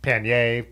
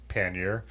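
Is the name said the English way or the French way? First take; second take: French; English. First: The name is said with a French-style pronunciation. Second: The name is said with a plain English pronunciation. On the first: This is how outsiders try to say it. The speaker calls it wrong. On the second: This is how the locals say it. The speaker calls it right.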